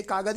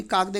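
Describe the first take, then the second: First: कागद said unchanged as the correct plural, with no ending; correct plural form. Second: कागदे said with the wrong -e plural ending; wrong plural form. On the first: Teacher giving the students the correct plural कागद. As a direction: say कागद plainly, no -e added. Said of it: "ते कागद ही बोलते हैं". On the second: Teacher voicing the wrong plural कागदे to the students. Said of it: "कागदे नहीं बोलते". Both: Shown as a demonstration.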